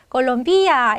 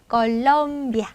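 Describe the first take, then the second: First: The stress falls on a syllable other than lom. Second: The stress falls on the syllable lom. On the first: The speaker calls it wrong. "이러시면 안 돼요" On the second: The speaker calls it right. "해주셔야 되죠"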